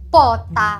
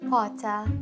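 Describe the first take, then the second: First: It is said in an angry tone. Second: It is said in a neutral tone.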